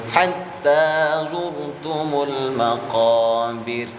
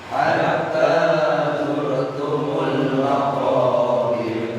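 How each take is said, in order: The two takes are said the same way.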